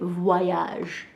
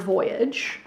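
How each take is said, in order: First: It is pronounced the French way. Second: It is pronounced the plain English way.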